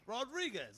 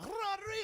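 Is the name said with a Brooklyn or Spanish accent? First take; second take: Brooklyn; Spanish. First: It is said in a Brooklyn accent. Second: It is said Spanish-style with a rolled r.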